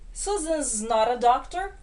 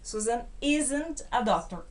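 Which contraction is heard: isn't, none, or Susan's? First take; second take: Susan's; isn't. First: The verb is joined onto the name as Susan's. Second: The negative is joined onto the verb as isn't. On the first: "a primeira forma de contrair com o verbo to be" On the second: "pronúncia aqui também"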